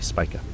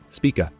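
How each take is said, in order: First: The first syllable sounds like 'spike'. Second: The first syllable does not sound like 'spike'. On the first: The speaker calls it right. "It's actually Spica. ... you spike to Spica" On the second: The speaker calls it wrong. "I don't know why I said Spica"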